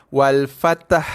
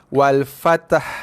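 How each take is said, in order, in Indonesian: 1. Bunyi t dan h digabung menjadi satu suku kata. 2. Bunyi t dan h digabung menjadi satu suku kata.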